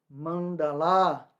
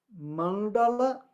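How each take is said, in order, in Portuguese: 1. A vogal final é prolongada. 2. Todas as vogais, incluindo a final, são curtas. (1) "a não ser que seja feminino, aí o último vai ser longo" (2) "Mas os As são todos curtos"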